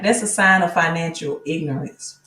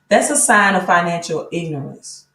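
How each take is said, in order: First: It is said in the speaker's normal voice. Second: It is said in a put-on imitation voice.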